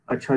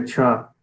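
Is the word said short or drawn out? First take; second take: short; drawn out. First: The word is said short and plain. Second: The word is drawn out, sounding suspicious.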